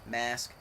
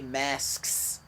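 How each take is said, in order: First: The word ends without an audible s sound. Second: The word ends with a clear s sound. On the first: The speaker calls it wrong. "to me that was plural, but it sounds like the singular" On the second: The speaker calls it right. "I had to say masks, plural"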